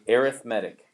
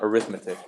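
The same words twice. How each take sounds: First: It carries the stress pattern of the adjective. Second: It carries the stress pattern of the noun. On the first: It describes a kind of sequence or series. The speaker calls it right. "when we use this word as an adjective... we say arithmetic" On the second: It names the branch of mathematics. The speaker calls it wrong. "It's not arithmetic. Arithmetic is a noun"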